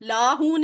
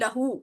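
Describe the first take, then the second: First: The first vowel is long. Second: The first vowel is short. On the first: The speaker calls it wrong. "लाहू नहीं" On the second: The speaker calls it right.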